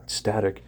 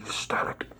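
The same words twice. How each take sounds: First: Static said out loud and firm; voiced static after the whisper; louder static. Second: Static breathed out unvoiced; whisper. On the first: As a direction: punch out the word static. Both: Shown as a demonstration. Repeating static.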